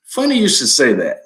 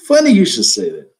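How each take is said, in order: First: Said in the usual way. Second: Louder repeat. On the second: Real, not acted.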